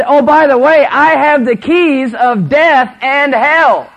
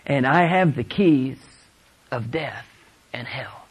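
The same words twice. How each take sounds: First: High, slow, full-voiced proclamation; triumphant preaching shout. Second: Measured quotation. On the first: Real, not acted. Preacher proclaims Christ holds the keys, shouted in triumph. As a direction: shout it out word by word. Sermon climax, repeated quote. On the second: Retold or imitated. Scripture quote, first take.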